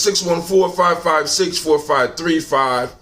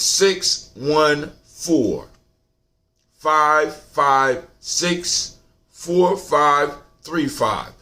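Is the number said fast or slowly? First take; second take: fast; slowly. First: The number is said at a quicker pace. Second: The number is said at a slower pace.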